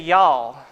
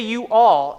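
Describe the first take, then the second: First: It is squeezed into one syllable. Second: It is said as two separate syllables. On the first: "and they say y'all" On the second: "Say you all"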